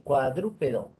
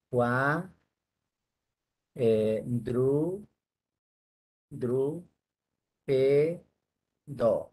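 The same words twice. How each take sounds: First: Said in the usual way. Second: "cuadrúpedo" broken into cua, dru, pe, do with pauses; syllable by syllable. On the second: Shown as a demonstration. Teacher checking the syllables of "cuadrúpedo", said one by one. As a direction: sound out "cuadrúpedo" slowly, each syllable held apart. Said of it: "Vamos a ver si tiene cuatro cabezas".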